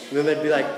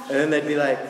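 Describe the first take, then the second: No difference in how they are said.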